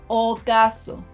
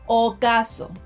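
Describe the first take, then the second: Both takes have the same delivery.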